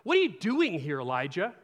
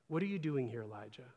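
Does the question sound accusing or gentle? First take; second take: accusing; gentle. First: The question sounds harsh and accusing. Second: The question sounds soft and caring. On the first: God is rebuking Elijah. The speaker calls it wrong. "You might have initially even read it this way" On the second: God is tenderly caring for Elijah. The speaker calls it right. "I don't think that's the tone of it at all"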